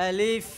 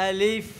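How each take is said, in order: Both takes have the same delivery.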